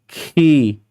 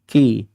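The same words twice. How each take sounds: First: The syllable is said with overdone force and breath. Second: The syllable is said plainly, without extra force. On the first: The speaker calls it wrong. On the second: The speaker calls it right.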